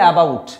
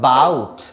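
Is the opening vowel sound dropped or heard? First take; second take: heard; dropped. First: The word begins with a clear vowel sound. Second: The opening vowel is left out entirely. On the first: The speaker calls it wrong. "হ্যাঁ অ্যা বলে থাকি" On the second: The speaker calls it right. "কিন্তু actually এটা silent থাকে"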